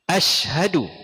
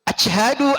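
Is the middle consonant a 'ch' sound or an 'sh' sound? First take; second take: sh sound; ch sound. First: The consonant is a spread, hissing 'sh' sound. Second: The consonant is a stopped 'ch' sound. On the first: The speaker calls it right. "Ash. Kok kuat sikit" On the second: The speaker calls it wrong. "Dia jadi huruf ca lah... sebab tak ada tafashi"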